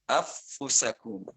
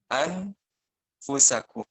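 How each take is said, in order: First: The n merges fully into a doubled f. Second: The n is pronounced clearly before the f. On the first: "Kalau idgham affusakum" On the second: "Kalau idhar itu berarti dibacanya an anfusakum"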